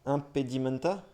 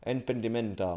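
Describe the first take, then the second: First: "Impedimenta" tried hesitantly, rising like a question; unsure pronunciation. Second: "Impedimenta" said as "en-pen-dé-menta" with a final falling close; settled pronunciation. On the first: Reading the dictionary live, stumbling on an unknown word, unsure rising try. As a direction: test out "Impedimenta" as if asking whether it's right. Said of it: "bon, je sais pas comment ça se prononce".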